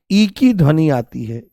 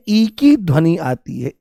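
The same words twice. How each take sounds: The two takes are said the same way.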